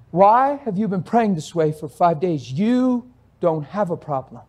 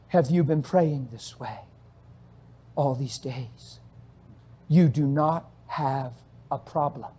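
First: Said in the usual way. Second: Slow, soft and low; calm voice of God. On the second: Retold or imitated. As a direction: speak gently, unhurried, like a father. God speaks to the man.

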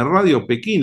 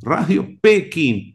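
First: Said in the usual way. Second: Pekín said slowly with the stress landing on the final í. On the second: Shown as a demonstration. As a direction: lean on the last syllable of Pekín, slow and clear. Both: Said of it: "con acento en la I".

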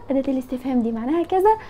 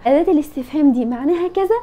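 First: Quick repeat. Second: Said in the usual way. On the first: Shown as a demonstration.

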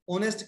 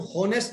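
First: "ऑनेस्ट" starting straight on the vowel; silent h. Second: "हॉनेस्ट" with an audible h at the start; h wrongly sounded. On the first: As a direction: drop the h in "ऑनेस्ट". ("ऑनेस्ट", ह के बिना) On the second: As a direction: pronounce the silent h in "हॉनेस्ट". ("हॉनेस्ट" में ह बोलकर) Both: Shown as a demonstration. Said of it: "एच silent है".

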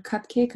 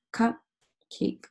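First: Said in the usual way. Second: Cupcake broken as "cup", pause, "cake"; split into syllables. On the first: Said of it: "thinking about the syllables". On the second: Shown as a demonstration. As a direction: say cup and cake as two separate words. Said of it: "looking at my base word".

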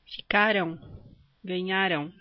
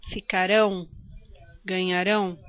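First: "Ficaram", "ganharam": isolated words, stress on CA and NHA; tônica na penúltima. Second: "Ficarão", "ganharão": isolated words, strong final RÃO; tônica na última. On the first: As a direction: stress the next-to-last syllable of "Ficaram" and "ganharam". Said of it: "a sílaba tônica é a penúltima". ("Ficaram", "ganharam", com a penúltima sílaba forte) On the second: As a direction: stress the last syllable of "Ficarão" and "ganharão". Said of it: "a sílaba tônica é a última". ("Ficarão", "ganharão", com a última sílaba forte) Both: Shown as a demonstration.

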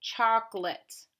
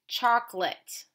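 First: "Chocolate" slowly in two beats, choc and lit; "Chocolate" slow, with a clear short lit ending; slow sounding out. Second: Said in the usual way. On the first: Shown as a demonstration. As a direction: stretch "Chocolate" out for a learner to hear. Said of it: "Say it to yourself". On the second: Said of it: "Our next word is".

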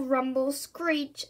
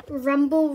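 First: Slow drawn-out rumble. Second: A big booming RUMBLE like a lorry; loud rumble. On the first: Reading to children, slow drawn-out truck noises. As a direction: stretch Rumble, Screech long and slow. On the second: Reading to children, a booming lorry rumble. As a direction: boom out the truck noise. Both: A narrator's reading. Sound effect of bin lorry.

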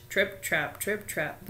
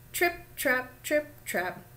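First: Lightly voiced heavy goat steps; big hoofsteps. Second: Light, higher-pitched trip-trapping; short, separated little goat steps; little hoofsteps. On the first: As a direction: plod the words out like big hooves. Biggest goat's hooves on bridge. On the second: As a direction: tap out the words like small hooves. Little goat's hooves on bridge. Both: A narrator's reading.

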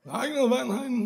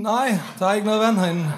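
First: Put-on high, soft slurred drunk voice; much higher mock drunk line; drunk Liam. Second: Said in the usual way. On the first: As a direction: Liam noticing, sloshed and puzzled. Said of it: "Sådan, Liam lyder, når han er fuld".

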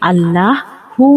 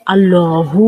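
First: "আল্লাহু" drawn out as "Allaaa-hu"; light, open middle in "আল্লাহু"; wrong light lam. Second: "আল্লাহু" drawn out as "Allooo-hu"; heavy, rounded middle in "আল্লাহু"; correct heavy lam. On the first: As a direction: say "আল্লাহু" slowly with a thin L and open a. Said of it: "নয়". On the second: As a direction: say "আল্লাহু" slowly with a thick L and rounded vowel. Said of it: "হবে". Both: Shown as a demonstration.

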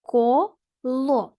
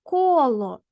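First: "Коло" split into two separate syllables, Ко, ло. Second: "коло" as one word, ко louder and drawn out; stress on first syllable. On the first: Teacher showing pupils open syllables, syllable by syllable. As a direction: say "Коло" in two slow beats with a gap between. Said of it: "якщо склад закінчується на голосну". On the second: Teacher giving pupils an example of a stressed syllable, stress on ко. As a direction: punch the ко in "коло", let ло drop away. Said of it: "а ко наголошений склад". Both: Shown as a demonstration.

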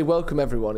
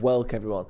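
First: Said in the usual way. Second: "Welcome" cut to "welk", run straight into "everyone"; slurred welcome. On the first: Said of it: "you meant to say". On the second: Shown as a demonstration. Co-host shows host his botched greeting, "Welcome" slurred into "welk-everyone". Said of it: "and you say sort of".

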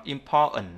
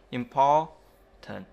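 First: "important" as impor-n, T swallowed. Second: Said in the usual way. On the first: Shown as a demonstration. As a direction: stop before the final N of "important", no T. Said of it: "có thể bỏ qua âm T". (đọc "important" thành im-po-ần, bỏ t) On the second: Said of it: "ta sẽ đọc là important".

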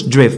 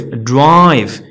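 First: دريف as a short "drev"; short vowel. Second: درايف drawn out slowly, "draaive"; long vowel. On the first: Teacher showing the mistake to avoid, short vowel. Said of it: "ما غنقولش دريف". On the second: Teacher modelling silent E, long vowel. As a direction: stretch the "ai" in درايف. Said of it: "كتخلي الفاول طويل". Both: Shown as a demonstration.

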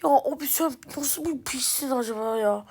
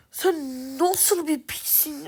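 First: Said in the usual way. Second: Slowly asking his teammate how he can be so bad, in disbelief; drawn-out disbelief. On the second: Real, not acted. Insulting teammate slower.

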